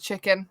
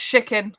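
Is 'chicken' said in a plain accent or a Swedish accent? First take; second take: plain; Swedish. First: Chicken is said in the speaker's ordinary accent. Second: Chicken is said in an imitated Swedish accent. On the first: This is the usual way to say it. "instead of chicken" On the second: This is how someone else says it. "He says chicken"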